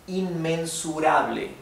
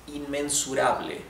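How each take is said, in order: Both takes have the same delivery.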